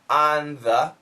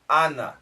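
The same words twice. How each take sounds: First: The th sound is clearly pronounced. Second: The th sound is nearly dropped, like na. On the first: "Perfect pronunciation" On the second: "when we say it fast, it really does sound like na"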